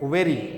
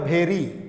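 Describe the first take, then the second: First: The word begins with a 'v' sound. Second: The word begins with an aspirated 'bh' sound. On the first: The speaker calls it right. "भेरी नहीं, वेरी" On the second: The speaker calls it wrong. "जो गलत इसका उच्चारण करता होगा वो पढ़ेगा भेरी"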